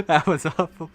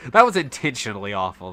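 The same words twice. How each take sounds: First: Higher, mocking parrot of the other's words; playful imitation of the friend's complaint; mock echo. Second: Said in the usual way. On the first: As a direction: throw their line back in a teasing put-on voice.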